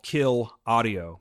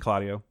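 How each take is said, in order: First: The two words are said separately and clearly. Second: The words are said fast and run together.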